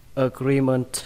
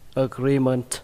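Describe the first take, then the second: The two takes are said the same way.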